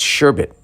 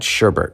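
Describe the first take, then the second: First: The last syllable sounds like 'bet', with no r. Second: The last syllable sounds like 'bert', with an r. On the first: The speaker calls it right. "It's sherbet" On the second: The speaker calls it wrong. "not sherbet. It's not a new Muppet"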